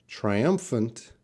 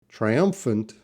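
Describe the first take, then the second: The two takes are said the same way.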